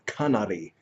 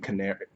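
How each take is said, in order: First: It is said with a non-English pronunciation. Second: It sounds like the English word canary. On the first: The speaker calls it right. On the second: The speaker calls it wrong.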